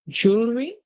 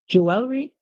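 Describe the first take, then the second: First: The word has an American pronunciation. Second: The word has a British pronunciation. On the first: "that's the American pronunciation" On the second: "that's the British pronunciation"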